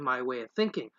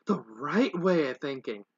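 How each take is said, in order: First: Said in the usual way. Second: "right" drawn out and leaned on; slow down and lean hard on the word "right"; self-assured correction, "right" stretched; stress on right. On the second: A narrator's reading.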